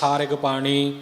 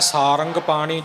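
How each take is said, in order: First: The second syllable is rig, with an i vowel. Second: The second syllable is rang, nasal, no i. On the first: "ਰਾਰੇ ਨੂੰ ਸਿਹਾਰੀ ਲਾ ਕੇ" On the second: "ਇੱਕ ਹੈ ਸਾਰੰਗ ਪਾਣੀ"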